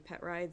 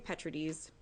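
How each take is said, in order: First: The name is said like 'pet rides'. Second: The name is not said like 'pet rides'. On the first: This follows the spelling and is easier for others. "because that's how it's spelled" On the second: This is how the family says the name. "we say Petrides"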